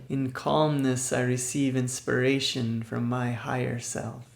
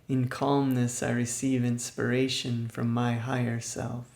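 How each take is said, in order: No difference in how they are said.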